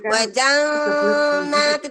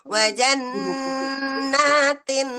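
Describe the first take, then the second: First: The doubled n is blurred and indistinct. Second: The doubled n is clear and nasalized. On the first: The speaker calls it wrong. "Bukan seperti ini" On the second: The speaker calls it right. "Nunnya jelas tetapi digunakan"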